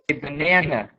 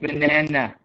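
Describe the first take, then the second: First: The stress falls on the middle syllable. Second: All syllables are said flat and even. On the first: The speaker calls it right. "we put the stress on the middle syllable. We say banana" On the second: The speaker calls it wrong. "We don't say banana, right? it's not flat like that"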